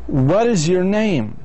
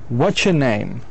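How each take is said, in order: First: Every word is pronounced fully and separately. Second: "What is your" blends into a short "watcher".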